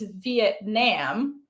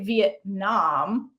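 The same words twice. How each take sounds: First: British accent, final vowel sounds like a stressed 'a'. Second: American accent, final vowel sounds almost like 'o'. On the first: "if you're a British person, like Brit in British English, it's Vietnam. Like the A is emphasized uh, in the end" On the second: "an American will say Vietnam, almost like it's an O"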